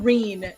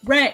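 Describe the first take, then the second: First: The vowel is a long 'ee' sound. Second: The vowel is short, as in 'wren'. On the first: The speaker calls it wrong. "everyone keeps calling Ren Reen" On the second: The speaker calls it right. "it's Ren, like the bird"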